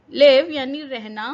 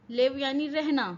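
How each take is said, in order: First: लिव called out much louder; loud announcement. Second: Said in the usual way. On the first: Shown as a demonstration. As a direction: announce लिव strongly to the class. Teacher announces new word loudly. (लिव ज़ोर से पुकारकर)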